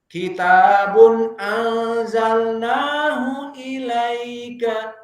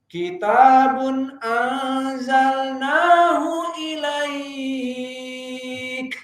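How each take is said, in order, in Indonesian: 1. Vokal 'ai' dibaca pendek, akhirannya tetap ada. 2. Vokal 'ai' dibaca panjang, berakhir pada k. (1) "hanya sekedar ilaika ilaika mikdar harakaten" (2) "jika wakaf pada ilaika maka jadi mad arid lisukun bisa empat, lima dan enam"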